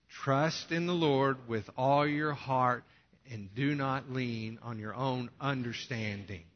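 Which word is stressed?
understanding. The word understanding is stressed loudly.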